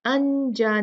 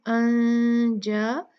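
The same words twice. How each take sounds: First: अनजा with a plain, full n; wrong, clear n. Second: अनजा with the n hidden, a long nasal hum; nasal ikhfa. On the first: Teacher showing the wrong way, a clearly spoken n. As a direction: say अनजा with a clean, closed n. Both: Shown as a demonstration. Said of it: "अनजा नहीं पढ़ा था".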